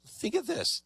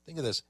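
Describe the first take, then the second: First: Emphatic. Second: Said in the usual way. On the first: Shown as a demonstration. Host urging viewers, Think of this pitched up high. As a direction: Think of this said much higher, pressing the point.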